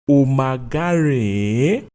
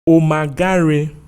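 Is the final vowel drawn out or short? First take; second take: drawn out; short. First: The final vowel is repeated and drawn out. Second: The final vowel is short and not repeated. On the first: I am not fine. "I am not fine" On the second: I am fine. "I am fine"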